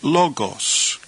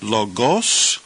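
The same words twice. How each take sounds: First: "logos" stressed LO-gos, falling away after; stress on first syllable. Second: "logos" stressed lo-GOS, rising on the last syllable; stress on second syllable. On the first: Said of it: "accent occurs over the first syllable". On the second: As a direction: put the weight on the end of "logos". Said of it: "So would we pronounce this word". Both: Shown as a demonstration.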